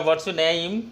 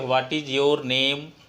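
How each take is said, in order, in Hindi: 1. 'What is' को 'what's' में संक्षिप्त किया जाता है। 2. 'What is' को पूरा बोला जाता है। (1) "अगर अंग्रेज होगा तो आपसे ये पूछेगा" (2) "आप सुनना क्या चाहते हैं"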